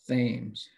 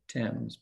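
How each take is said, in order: First: It is pronounced the way it may be in Connecticut. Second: It is pronounced the way it is in England. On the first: This may be how the name is said in Connecticut. "but maybe in Connecticut, it's the Thames" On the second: This is how the river name is said in England. "In England, it's the Thames"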